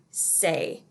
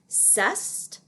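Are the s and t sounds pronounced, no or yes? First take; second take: no; yes. First: It sounds like the English word say. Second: The s and t sounds are pronounced. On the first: The speaker calls it right. "in French they say the word c'est. It sounds like how we say the word say" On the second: The speaker calls it wrong. "a lot of times people pronounce this C apostrophe E S T as cest"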